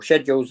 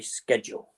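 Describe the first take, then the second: First: The word is said with a British pronunciation. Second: The word is said with an American pronunciation. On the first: The speaker calls it right. "the British terminology" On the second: The speaker calls it wrong. "the Americans say schedule"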